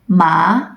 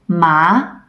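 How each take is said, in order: First: The pitch rises like a question. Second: The same.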